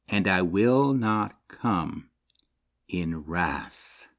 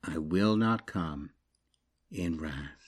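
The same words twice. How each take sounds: First: Said in the usual way. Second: Quieter, slow repeat for weight; soft echo. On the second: Shown as a demonstration. Preacher repeating God's promise to let it land, soft. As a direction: let the words sink in softly. Echoes the verse softly.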